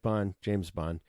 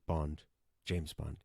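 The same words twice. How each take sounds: First: It is said quickly. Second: It is said slowly and deliberately.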